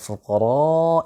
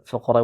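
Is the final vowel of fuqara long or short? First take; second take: long; short. First: The final vowel is held long. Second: The final vowel is held short. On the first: The speaker calls it right. "Jadi dibaca panjang" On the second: The speaker calls it wrong. "Dia baca fuqara dengan baca pendek"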